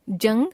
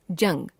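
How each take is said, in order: First: जंग with the pitch rising; जंग left hanging on a rise; error example, rising. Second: जंग lower, falling; corrected form, falling. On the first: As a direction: lift the end of जंग. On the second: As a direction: close off जंग with a fall. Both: Shown as a demonstration. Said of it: "अनुस्वार और अनुनासिक संबंधी अशुद्धियां".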